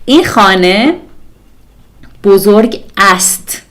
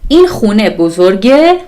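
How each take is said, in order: First: The full forms khaneh and ast are pronounced. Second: The reduced forms khuneh and bozorgeh are pronounced.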